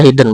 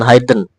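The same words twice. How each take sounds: First: The first vowel is short, as in 'hit'. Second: The first vowel is long, as in 'hide'. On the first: The speaker calls it right. "tapi kalau hidden itu dibaca hidden" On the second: The speaker calls it wrong. "bukan hidden"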